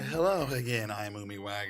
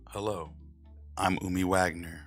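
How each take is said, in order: First: It is said in her normal speaking voice. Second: It is said in a put-on narrator voice.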